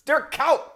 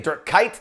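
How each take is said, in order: First: The name is said with Dutch pronunciation. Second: The name is said with English pronunciation. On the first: The speaker calls it right. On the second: The speaker calls it wrong. "People say"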